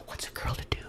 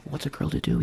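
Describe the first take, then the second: First: Breathy coy whisper. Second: Said in the usual way. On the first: Pretend. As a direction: whisper it like a secret to the camera. Coy persona aside to viewers.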